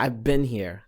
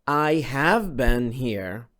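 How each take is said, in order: First: The word have is reduced to a contraction. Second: The word have is said in full. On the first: "تسمع" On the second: "بدل ما تسمع مثلا"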